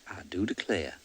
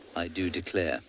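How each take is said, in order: First: It is said in a Southern US accent. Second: It is said in a plain accent.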